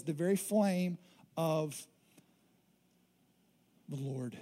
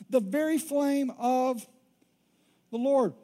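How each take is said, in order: First: Hushed quote. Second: Proclaimed quote. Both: Shown as a demonstration.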